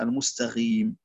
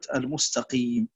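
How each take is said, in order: First: The consonant is a gargled gh sound. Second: The consonant is a deep throat q sound. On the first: The speaker calls it wrong. "تقرأ لحنا" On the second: The speaker calls it right. "ينبغي الحرص على القاف"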